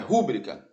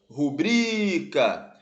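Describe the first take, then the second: First: The stress is on the first syllable. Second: The stress is on the second syllable. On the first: The speaker calls it wrong. "não é" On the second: The speaker calls it right. "As palavras rubrica e recorde são paroxítonas"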